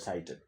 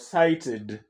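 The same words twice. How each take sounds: First: The -ed ending adds no extra syllable. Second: The -ed ending is an extra syllable. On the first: The speaker calls it wrong. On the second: The speaker calls it right. "I talk about"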